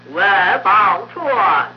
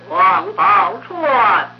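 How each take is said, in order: First: The first syllable ends without a nasal sound. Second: The first syllable ends with a nasal sound. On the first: The speaker calls it wrong. "容易念成功外宝钏" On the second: The speaker calls it right. "比如说王宝钏"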